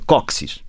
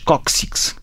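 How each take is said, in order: First: The word ends with a plain s sound. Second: The word ends with a ks sound.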